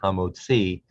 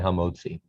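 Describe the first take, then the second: First: The stress falls on the last syllable. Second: The stress falls before the last syllable. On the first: This is the actual pronunciation. "the last syllable gets the accent" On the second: This is a common community habit.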